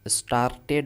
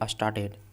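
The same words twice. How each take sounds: First: The r sound is clearly pronounced. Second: The r sound is left silent. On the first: The speaker calls it wrong. "स्टार्टेड नहीं पढ़ेंगे" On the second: The speaker calls it right. "आर silent है"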